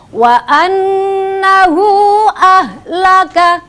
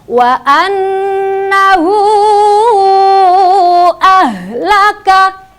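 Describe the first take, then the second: First: The vowel of 'hu' is short. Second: The vowel of 'hu' is held long. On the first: The speaker calls it wrong. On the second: The speaker calls it right.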